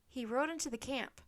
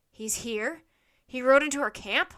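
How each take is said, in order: First: Said in the usual way. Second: Incredulous question, building to very loud; alarmed echo. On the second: A narrator's reading. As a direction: repeat it back, outraged disbelief rising. Centurion echoes Annie in alarm.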